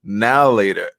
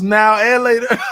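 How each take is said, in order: First: The middle word is dropped, run together as one. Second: The middle word 'and' is clearly pronounced. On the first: This is how it was said where the speaker grew up. "it was just now later" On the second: This is the actual three-word name. "I didn't even know it was now and later"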